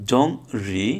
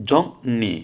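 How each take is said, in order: First: জং রি with an r in রি; as-spelled pronunciation. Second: জং নি with n replacing r; জং নি, no r at all; r becomes n. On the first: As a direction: say জং, pause, then রি with an r. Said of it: "তাহলে হওয়ার কথা ছিল জং". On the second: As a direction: say জং, then নি with an n sound. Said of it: "র না হয়ে ন হবে". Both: Shown as a demonstration.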